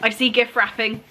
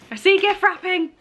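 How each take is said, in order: First: Said in the usual way. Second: "I see gift wrapping" said again, higher and more excited, with a lift on "see"; a thrilled second take of "I see gift wrapping"; excited higher repeat. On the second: Real, not acted.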